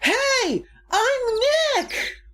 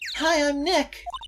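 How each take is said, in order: First: It is said loudly, almost shouted. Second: It is said at a normal, quiet volume.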